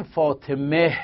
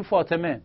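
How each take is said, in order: First: فاطمه with the final ه wrongly sounded as H; mistaken final H. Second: فاطمه ending on a pure E, the ه silent; Persian-style فاطمه, no H after the last vowel; correct silent H. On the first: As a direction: end فاطمه on an audible, mistaken H. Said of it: "این اشتباهه". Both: Shown as a demonstration.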